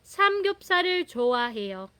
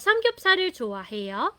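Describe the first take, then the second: First: The pitch stays level through the end. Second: The pitch rises at the end. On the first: It is a statement that the person likes samgyeopsal. "diretso lang po yung tono niya" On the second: It asks whether the listener likes samgyeopsal. "tataas yon"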